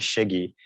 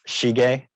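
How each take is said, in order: First: The name is said with an American pronunciation. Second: The name is said with a Japanese pronunciation. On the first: "my Columbia pronunciation of my name" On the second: "which is kind of more of a Japanese pronunciation"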